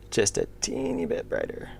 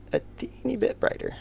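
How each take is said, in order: First: Said in the usual way. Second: Put-on "a teeny bit brighter" in a much higher, tiny, breathy voice; squeaky high voice. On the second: Shown as a demonstration. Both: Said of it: "I failed".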